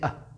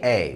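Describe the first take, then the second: First: The word has a weak, short 'uh' vowel. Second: The word has a full 'ay' vowel. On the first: The speaker calls it right. "we say uh, very subtly" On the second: The speaker calls it wrong. "we do not say A"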